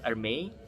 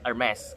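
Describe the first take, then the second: First: The name is said with a French pronunciation. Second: The name is said with an American pronunciation. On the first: "Kalau bahasa Perancis itu" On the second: "Kalau kamu orangnya lebih suka ke American style, panggilannya itu"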